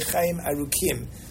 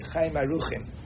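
First: The middle consonant is a hard k sound. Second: The middle consonant is a soft, raspy ch sound. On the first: This follows strict grammar for the meaning long. The speaker calls it right. "it should be with a dagesh in the Chaf" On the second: This is the common everyday pronunciation. The speaker calls it wrong. "the way I pronounce this, how most people pronounce it"

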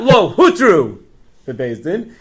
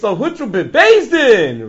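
First: The stress falls on the word lo. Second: The stress falls on the word bebezdin. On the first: It was never permitted at all. The speaker calls it wrong. "It's not" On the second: It was permitted, but later and not by the court. The speaker calls it right. "It's all where you put the emphasis. ... It wasn't bezdin"

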